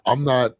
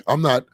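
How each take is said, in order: Both takes have the same delivery.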